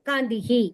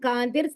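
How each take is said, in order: First: The word ends with an echoed hi sound. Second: The word ends with an r sound. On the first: The reader stops after the word. "നമ്മൾ ഇടയിൽ നിർത്തുകയാണെങ്കിൽ" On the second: The word is read joined to the next word. "ഇത് ഒരുമിച്ച് വായിക്കുകയാണെങ്കിൽ"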